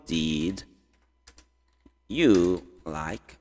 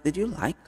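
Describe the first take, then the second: First: Slow and low, long pause after "Did"; word by word. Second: Said in the usual way. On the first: Shown as a demonstration. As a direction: separate "Did" from "you like". Teacher builds question word by word. (bem devagar, grave, com pausa longa)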